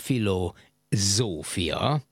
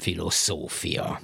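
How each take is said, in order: First: The middle consonant is a voiced z. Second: The middle consonant is a voiceless s. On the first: The speaker calls it right. "zöngésedik" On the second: The speaker calls it wrong. "és nem filoszófia"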